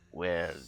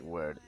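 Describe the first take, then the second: First: The R sound is heavily accentuated. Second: The R sound is mild and light. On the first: "that one is kind of like very accentuated" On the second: "it's not like word"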